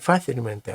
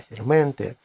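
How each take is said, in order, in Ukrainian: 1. Наголос на першому складі. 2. Наголос на одному з наступних складів. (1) "не фасільменте" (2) "а фасільменте ... Але це відхилення від норми"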